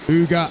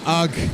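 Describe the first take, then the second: First: The name ends with a vowel sound. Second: The name ends with a consonant sound. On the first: This is the co-commentator's pronunciation. "You say Uga" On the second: This is the speaker's own pronunciation. "I say Ugg"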